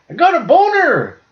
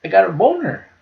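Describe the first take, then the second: First: Put-on much higher, louder toddler exclamation; proud little kid. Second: Put-on higher toddler voice, calmer second time; little kid repeating. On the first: Retelling the bow-and-arrow video, squeaky proud toddler shout. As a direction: blurt it out like a proud three-year-old. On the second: Retelling the kid's second answer, higher but calmer toddler voice. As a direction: repeat it matter-of-factly like a small kid. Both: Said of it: "He's like".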